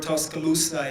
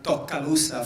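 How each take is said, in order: First: It is said in a standard accent. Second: It is said in a Puerto Rican accent.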